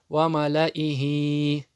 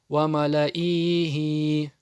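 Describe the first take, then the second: First: No vowel is drawn out long. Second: A vowel is drawn out long. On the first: The speaker calls it right. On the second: The speaker calls it wrong.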